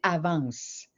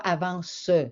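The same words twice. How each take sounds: First: The final e is silent. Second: The final e is pronounced as a vowel. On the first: The speaker calls it right. "on va dire «avance»" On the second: The speaker calls it wrong. "on ne dit pas «avance»"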